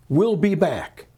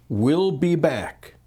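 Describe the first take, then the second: First: Said in the usual way. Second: "We'll be back" said slowly, each word weighed; slow deliberate quote. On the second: Shown as a demonstration. Stressing the three quoted words "We'll be back" slowly. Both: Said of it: "Three words".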